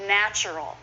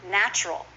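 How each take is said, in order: First: "Natural" as nach-er-al; full three syllables. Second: "natural" as NACH-rul; two syllables. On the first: Teacher showing the long form, "Natural" in three syllables. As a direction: keep the middle vowel in "Natural". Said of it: "is often natural". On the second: Teacher modelling the common form, "natural" as nach-rul. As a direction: drop the middle vowel of "natural". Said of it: "Just two syllables". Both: Shown as a demonstration.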